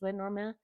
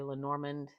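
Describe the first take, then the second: First: The name is pronounced in a French way. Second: The name is pronounced in a non-French way. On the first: The name is French. "I think it's French, so I think it's" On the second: This is how many people say it. "A lot of people say"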